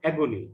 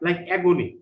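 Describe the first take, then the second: First: Said in the usual way. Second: Agony said clearly and firmly, stress on AG; a teacher modelling agony for students to repeat; agony modelled loud and clear; model pronunciation. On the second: Shown as a demonstration. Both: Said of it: "try to pronounce the words correctly".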